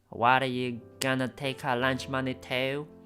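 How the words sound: It is said in an Australian-sounding accent.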